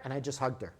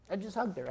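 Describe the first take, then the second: First: Said in the usual way. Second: Hugged said higher, softly held; stress on hugged. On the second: Real, not acted. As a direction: lean into hugged, let it land.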